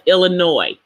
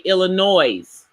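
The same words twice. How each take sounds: First: The final S is not pronounced. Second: The final S is pronounced. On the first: The speaker calls it right. "the S is silent" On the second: The speaker calls it wrong. "some people say Illinois. That's not correct"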